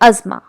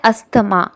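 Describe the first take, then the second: First: The middle is said with a single z. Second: The middle is said with s and th. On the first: This is how it is said in English. The speaker calls it right. "But in English we use to call it अजमा" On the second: This is how many people say it. The speaker calls it wrong. "बहुत से लोग इसको बोलते हैं अस्थमा"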